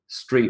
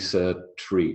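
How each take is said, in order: First: It is said without an added vowel sound. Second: An extra vowel is added after the s. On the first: The speaker calls it right. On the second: The speaker calls it wrong.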